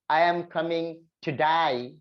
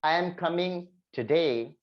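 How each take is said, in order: First: It is said in an Australian accent. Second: It is said in an Indian English accent. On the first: "if you are going to Australian English, they'll say" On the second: "that is something called Indian English or you can say British English"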